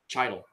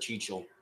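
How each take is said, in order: First: The middle consonant is a 't' sound. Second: The middle consonant is a 'ch' sound. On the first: This is how the speaker used to say it. "I used to pronounce it like chi- title" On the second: This is how the speaker says it now. "but I pronounce it Chichel"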